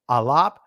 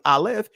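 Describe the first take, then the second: First: It uses the ancient pronunciation of the name. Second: It uses the Israeli pronunciation of the name. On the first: "I'm going to say it uh, in the ancient" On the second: "this I'm saying it in the uh, Israeli"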